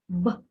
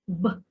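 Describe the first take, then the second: No difference in how they are said.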